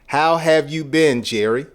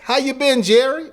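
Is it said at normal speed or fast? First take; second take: normal; fast. First: It is said at a normal speed. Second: It is said very fast.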